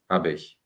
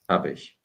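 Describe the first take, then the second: No difference in how they are said.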